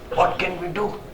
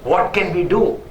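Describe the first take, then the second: First: It sounds helpless and resigned. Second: It sounds assertive and determined. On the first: Nothing can be done. "Is helplessness" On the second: We will find a way to act. "Is an assertment"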